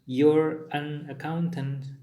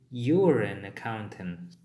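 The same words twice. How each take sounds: First: The words you're and an are said separately. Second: The words you're and an are linked together. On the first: The speaker calls it wrong. "ini dibaca dia menjadi bukan" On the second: The speaker calls it right. "tapi ... Dia disatukan"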